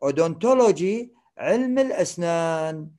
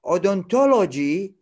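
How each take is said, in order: First: Said in the usual way. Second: "Odontology" spelled out slowly, syllable by syllable, rising at the end; slow pronunciation. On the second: Shown as a demonstration. Teacher models "Odontology" slowly for the class. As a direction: sound out "Odontology" slowly, one syllable at a time.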